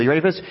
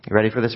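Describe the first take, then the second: First: Higher, rising hype question; excited build-up. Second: Said in the usual way. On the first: Acted. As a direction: lift it up to hype the crowd. Preacher builds excitement to verse.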